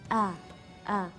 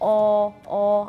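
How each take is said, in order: First: The vowel sounds light, thin and flat. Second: The vowel sounds dark, thick and rounded. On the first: The speaker calls it right. "tapi a a" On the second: The speaker calls it wrong. "nah itu tebal o"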